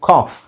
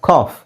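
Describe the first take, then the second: The two takes are said the same way.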